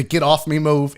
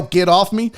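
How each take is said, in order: First: Said in the usual way. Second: Mock yell. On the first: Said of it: "I taught you the". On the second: Shown as a demonstration. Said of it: "tuck your chin down and yell".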